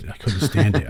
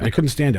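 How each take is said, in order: First: Said in the usual way. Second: Higher, pressed second time; emphatic repeat. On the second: Real, not acted. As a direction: repeat it with more force on couldn't.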